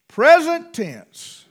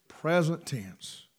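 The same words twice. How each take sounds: First: Slow, loud, high "Present tense"; loud, high, slow "Present tense" as a preaching point; emphatic proclamation. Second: Slow, softer, lower "Present tense"; quiet, slow "Present tense" as an echo. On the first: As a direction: hammer it home. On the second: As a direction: let the words settle low. Echoed quietly. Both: Real, not acted.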